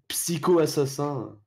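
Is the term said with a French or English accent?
French. The term is said with a French accent.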